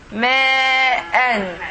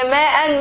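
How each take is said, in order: First: "Ma'an" with a very long first vowel, then a short "an"; drawn-out vowel. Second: Said in the usual way. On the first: Shown as a demonstration. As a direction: hold the "ma" of "Ma'an" long and steady. Teacher models a Quran word slowly.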